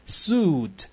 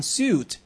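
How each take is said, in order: First: "suit" as the textbook transcribes it, not American; slow, careful textbook "suit"; textbook pronunciation. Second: "suit" said the American way; slow demo of American English "suit"; American pronunciation. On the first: Teacher showing the coursebook's phonetics, "suit" in textbook pronunciation. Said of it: "刚才在课本上的音标". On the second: Teacher contrasting with the textbook, "suit" in American pronunciation. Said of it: "而读成suit是美音". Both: Shown as a demonstration.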